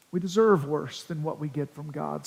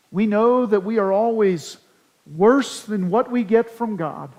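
First: "deserve" leaned on, with the line lower and much softer; quiet weight on "deserve"; stress on deserve. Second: Emphatic "worse"; stress on worse. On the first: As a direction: press "deserve" in a low, softer voice. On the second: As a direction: land hard on "worse" as the key word. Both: Shown as a demonstration. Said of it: "putting the emphasis on the wrong syllable".

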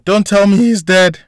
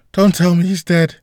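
First: High, loud, frantic scream; panicked woman yelling in the hallway. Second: High, pleading repeat, a little less loud; frantic repeat of the panicked cry. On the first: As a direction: shriek it in terror. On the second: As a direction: beg it in desperation. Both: A narrator's reading. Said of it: "in a panicked voice yelled out".

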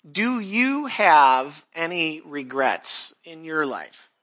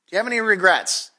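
First: Slow question. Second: Fast, pressing "Do you have any regrets?"; quick repeat. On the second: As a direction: fire the question back quickly. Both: Shown as a demonstration.

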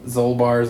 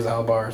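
First: "Zolbar" with a long O in the first syllable; alternative pronunciation. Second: "Zalbar" with a short A in the first syllable; alternative pronunciation. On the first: Trying out a half-remembered Wookiee name, "Zolbar" with long O. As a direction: say "Zolbar" as ZOLE-bar. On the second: Offering another guess at the Wookiee's name, "Zalbar" with short A. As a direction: say "Zalbar" as ZAL-bar, rhyming with pal. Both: Shown as a demonstration. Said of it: "something like that".

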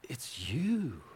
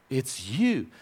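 First: Breathy hushed whisper of you. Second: Said in the usual way. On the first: Shown as a demonstration. Pastor telling the congregation they are God's treasure, whispered. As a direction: breathe it as an intimate secret.

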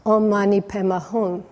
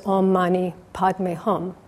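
First: Padme blurred to "Peme" and Hum closing on an n, said casually; the hermit's garbled Om Mani Padme Hum, easy and unbothered; old hermit calmly chanting his slightly wrong mantra; wrong pronunciation. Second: Padme said in full with a clear d and Hum closing on an m; the monk's careful, correct Om Mani Padme Hum; correct pronunciation. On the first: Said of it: "You've been reciting it wrong". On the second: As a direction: scholar monk teaching the proper mantra, carefully. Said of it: "And the monk said". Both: Retold or imitated.

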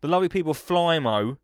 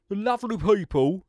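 First: Said in the usual way. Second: Higher cheeky salesman lilt; Del Boy voice. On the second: Retold or imitated. Host still in his Del Boy sales voice. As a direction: lay it on like a market trader. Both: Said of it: "I ain't gonna speak like that".

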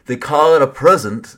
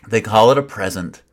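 First: Teasing sing-song parody; mock the proverb as you say it. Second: Mocking. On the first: Preacher parodying a saying he rolls his eyes at, mocking. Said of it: "I can't even say it without mocking it". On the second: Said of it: "I can barely say it". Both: Shown as a demonstration.

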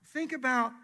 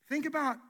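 Both takes have the same delivery.

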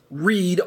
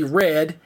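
First: "read" with a long ee, as "reed"; pronounced like reed. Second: "read" with a short vowel, as "red"; pronounced like red. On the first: Teacher showing the other reading, present-tense pronunciation. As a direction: say "read" to rhyme with "need". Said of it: "R E E D". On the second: Teacher showing one of two readings, past-tense pronunciation. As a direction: say "read" to rhyme with "bed". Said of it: "one can be pronounced R E D". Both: Shown as a demonstration.

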